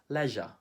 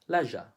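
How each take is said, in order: First: It is said with a British English accent. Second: It is said with a British English accent.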